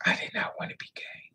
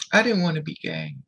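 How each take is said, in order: First: Real hushed whisper, words barely voiced; breathy confession, almost no voice. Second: Said in the usual way. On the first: Real, not acted. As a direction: drop to a whisper as you repeat it. Repeats the line, now whispered.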